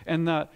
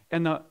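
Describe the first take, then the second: No difference in how they are said.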